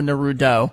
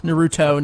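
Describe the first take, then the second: First: Naruto with the T softened to a D, lower. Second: Naruto with a crisp T sound in the last syllable. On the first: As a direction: say Naruto as if spelt Narudo, dropping in pitch. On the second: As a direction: say Naruto with a clear T before the final O. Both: Shown as a demonstration. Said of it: "you just said Naruto with a D".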